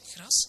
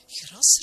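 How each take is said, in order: First: Said in the usual way. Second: High, loud exclamation on "Gras"; "Gras" cried out with rising pitch; startled cry. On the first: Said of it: "zo sprak de dominee". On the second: A narrator's reading. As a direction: shout "Gras" in disbelief, pitch jumping up. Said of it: "riep de heer van het pension".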